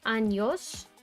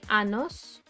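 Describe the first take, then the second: First: The middle consonant is a palatal ny sound. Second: The middle consonant is a plain n sound. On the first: It means years. The speaker calls it right. "if you don't say años" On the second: It sounds like the word for anus. The speaker calls it wrong. "you say anos, or something like that, then it's like anus"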